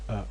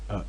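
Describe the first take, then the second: First: The vowel starts abruptly with a glottal catch. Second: The vowel starts abruptly with a glottal catch.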